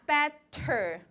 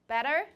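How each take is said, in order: First: The middle T is released with a puff of air. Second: The middle T is a quick tongue tap. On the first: The speaker calls it wrong. "It's not better. They don't aspirate that T in the middle of better" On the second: The speaker calls it right. "It's called tap or flap. This happens in what words in American English?"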